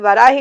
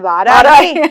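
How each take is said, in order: First: The first vowel is short. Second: The first vowel is long. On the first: The speaker calls it wrong. "అది వరాహి కాదు" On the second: The speaker calls it right. "అది వారాహి"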